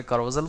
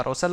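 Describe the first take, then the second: First: "carousel" said with a buzzed z, like "ka-ro-zel". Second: "carousel" said with a hissed s, like "ka-ro-sel". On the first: Tutor showing the other common way, "carousel" with a z sound. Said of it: "बहुत सारे carousel बोलते हैं". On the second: Tutor showing how many people say it, "carousel" with an s sound. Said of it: "बहुत सारे लोग इसको carousel बोलते हैं". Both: Shown as a demonstration.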